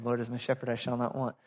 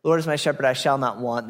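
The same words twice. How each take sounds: First: Quiet re-read. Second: Said in the usual way. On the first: Real, not acted. Re-reading the verse off the screen. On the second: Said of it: "other translations say".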